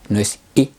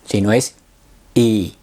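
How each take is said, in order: First: The vowel is cut very short. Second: The vowel has a medium length. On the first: The speaker calls it wrong. "no es corta" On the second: The speaker calls it right. "Es intermedia"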